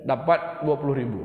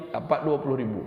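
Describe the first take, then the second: No difference in how they are said.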